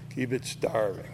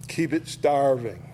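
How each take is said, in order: First: "Keep it starving" said again, softer and lower; quiet repeat. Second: Said in the usual way. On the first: Shown as a demonstration. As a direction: let "Keep it starving" sink into a soft low echo.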